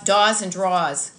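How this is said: It is said in a Boston accent.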